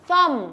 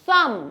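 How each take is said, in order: Both takes have the same delivery.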